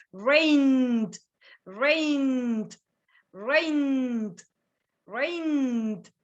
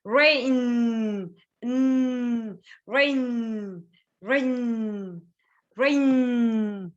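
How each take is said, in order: First: "Rained" with a long n closing on d; slow "Rained" as one syllable ending in voiced d; letter D ending. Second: "Rain" with a long humming n; slow "Rain", letting the n resonate; vibrating n. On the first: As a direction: hum the n in "Rained", then tap a d. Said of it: "With the letter D". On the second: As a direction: hold the final n of "Rain" as a hum. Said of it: "There is a vibration". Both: Shown as a demonstration.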